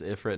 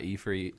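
First: "Ifrit" opening like the word "if"; Ifrit as IF-rit. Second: "Ifrit" opening with "ee", ending like "freet". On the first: Host defending his own pronunciation, "Ifrit" as IF-rit. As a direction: say "Ifrit" with short vowels, IF-rit. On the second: Host showing the rejected pronunciation, "Ifrit" as ee-FREET. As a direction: say "Ifrit" with long ee sounds, ee-FREET. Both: Shown as a demonstration. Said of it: "I'll pronounce it however I like".

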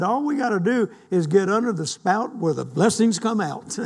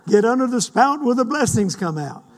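First: Said in the usual way. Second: Excited laughing repeat. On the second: Acted. Repeats quote louder, laughing.

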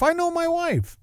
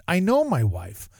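First: "I know my wife" said much higher, I stretched high; exaggerated high emphasis. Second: Said in the usual way. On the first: Shown as a demonstration. Telling the listeners he should have known his wife, high-pitched. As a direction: squeak it up high in mock exasperation.

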